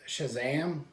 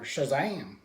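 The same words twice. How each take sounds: First: It is said in the speaker's normal voice. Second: It is said in an exaggerated character voice.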